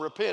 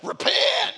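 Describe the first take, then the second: First: The word is said calmly and plainly. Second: The word is said forcefully and threateningly.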